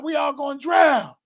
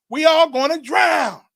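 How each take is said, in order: First: High, loud shout of panic; loud, high alarm with a falling end; panicked shout. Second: Higher, louder and slower shout of despair; the panic grows on the repeat; bigger panicked shout. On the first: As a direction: yell it as the water closes over everyone. Crying out drowning in vision. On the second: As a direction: draw it out, bellowing that all are lost. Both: Retold or imitated.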